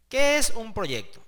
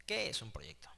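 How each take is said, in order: First: Emphatic question. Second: Unvoiced, breathy whisper of the question; whispered repeat. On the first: Teacher posing the lesson's opening question to students, loudly. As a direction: question thrown out higher and louder. Asks the key question aloud. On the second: Teacher repeating the question to students as a hushed aside, whispered. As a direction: drop to a secret whisper. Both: Shown as a demonstration.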